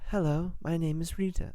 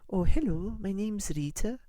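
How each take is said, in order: First: It is said in a General American accent. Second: It is said in a Welsh accent.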